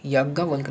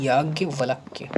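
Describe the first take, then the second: First: याज्ञवल्क ending on a bare k, no y; wrong ending. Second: याज्ञवल्क्य slowly, ending in k-ya; corrected ending. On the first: Teacher showing the mistake, याज्ञवल्क cut off at k. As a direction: drop the final ya of याज्ञवल्क. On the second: Teacher giving the correct word, slow याज्ञवल्क्य with final ya. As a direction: sound out the final kya of याज्ञवल्क्य. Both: Shown as a demonstration. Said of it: "याज्ञवल्क नहीं".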